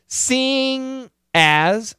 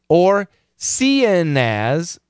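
First: The word ends with a full 'ing' sound. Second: The word ends with an 'in' sound. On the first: "Ing has the ing pronunciation, ng" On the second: "has the in pronunciation, n"

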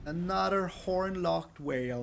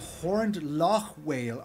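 First: It is said as horn-locked whale. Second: It is said as horned loch whale. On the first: The speaker calls it wrong. "I don't know why I always said it wrong" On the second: The speaker calls it right. "Is it the Horned Loch Whale? Okay, I get it now"

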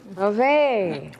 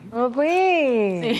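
First: It is said at a medium pitch. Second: It is said at a high pitch.

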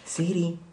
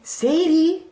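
First: The name is said in a natural voice. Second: The name is said in an imitated voice. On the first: The speaker is calling in their own way. "Let me try it in a normal voice" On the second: The speaker is copying another person's way of calling. "I'll be as similar to Tammy as I can"

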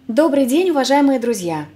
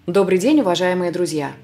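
First: The voice is light, high and resonates in the head. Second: The voice is deeper and resonates in the chest.

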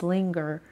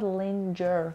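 First: The consonant after the n is a hard g. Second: The consonant after the n sounds like ch. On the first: The speaker calls it right. "It's linger. پس این صداش بچه ها گ هستش" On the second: The speaker calls it wrong. "It's not linger"

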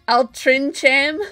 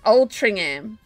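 First: The middle is said with a 'ch' sound. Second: The middle is said with an 'ng' sound. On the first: The speaker calls it wrong. "what did I say?" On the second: The speaker calls it right. "It's pronounced Altringham"

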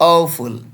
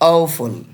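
The two takes are said the same way.

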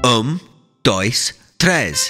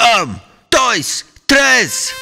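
First: It is counted a little louder. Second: It is counted as loud as possible.

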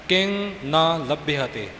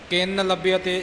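First: The first two words are said separately. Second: The first two words are run together. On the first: The speaker calls it right. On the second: The speaker calls it wrong.

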